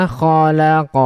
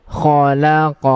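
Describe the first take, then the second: Both takes have the same delivery.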